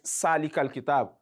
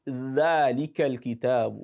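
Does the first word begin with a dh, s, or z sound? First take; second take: s; dh. First: The first word begins with a hissing s sound. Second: The first word begins with a soft voiced th. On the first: The speaker calls it wrong. "you hear people recite Salikal kitab. That is wrong" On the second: The speaker calls it right. "It is Dhalikal kitab"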